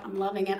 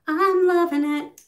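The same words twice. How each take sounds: First: Said in the usual way. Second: Excited. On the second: Real, not acted. Repeats loving it, louder.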